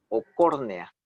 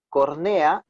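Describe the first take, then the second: First: Córnea stressed on the first syllable, CÓR-ne-a. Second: Cornea stressed on NE, the wrong way; cornea, stressed on the second syllable and a bit louder. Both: Shown as a demonstration. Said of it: "lleva tilde o no lleva tilde".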